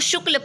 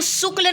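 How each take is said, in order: First: The word begins with a palatal sh sound. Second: The word begins with a plain s sound. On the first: The speaker calls it right. "इसको शुक्ल पढ़ेंगे, because it is a तलाव्य स" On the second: The speaker calls it wrong. "इसको शुक्ल नहीं पढ़ेंगे"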